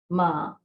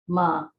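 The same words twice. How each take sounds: The two takes are said the same way.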